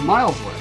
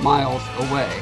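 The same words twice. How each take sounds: First: The stress falls on the word miles. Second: The stress falls on the word away. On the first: "the emphasis has to go on the distance, and then the away is like it just tapers off" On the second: "instead of"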